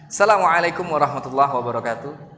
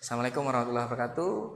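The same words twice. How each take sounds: First: The greeting sounds calm and confident. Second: The greeting sounds nervous and shaky. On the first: The speaker seems good at speaking. The speaker calls it right. "kepercayaan diri yang bagus, kita senyum, diam sejenak" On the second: The speaker seems nervous in front of people. The speaker calls it wrong. "kan udah kelihatan ini orangnya grogi"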